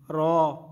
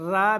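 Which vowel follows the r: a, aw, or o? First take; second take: aw; a. First: The vowel is a full, heavy aw sound. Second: The vowel is a thin, light a sound. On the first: The speaker calls it right. "बल्कि इसको पुर करना है, पुर पढ़ना है" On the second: The speaker calls it wrong. "रा भी नहीं पढ़ना"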